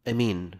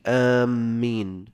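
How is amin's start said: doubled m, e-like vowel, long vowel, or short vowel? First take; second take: short vowel; doubled m. First: The first vowel is short and the m single. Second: The first vowel is long and the m doubled. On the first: "بالقصر والتخفيف" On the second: "بالمد والتشديد"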